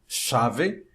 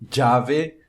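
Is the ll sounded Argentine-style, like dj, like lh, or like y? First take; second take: Argentine-style; dj. First: The ll has the Uruguayan and Argentine sound. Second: The ll sounds like a dj sound. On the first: "como se fosse na, no Uruguai e na Argentina" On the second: "como se fosse um D J"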